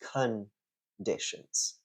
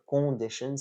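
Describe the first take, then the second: First: The first vowel sounds like the vowel in 'cup'. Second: The first vowel is a nasal 'on' sound. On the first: The speaker calls it right. "it's conditions ... like the way the letter U is pronounced in the word cup" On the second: The speaker calls it wrong. "it's not conditions"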